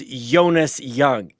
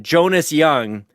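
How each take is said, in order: First: The name begins with a soft Y sound. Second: The name begins with a hard J sound.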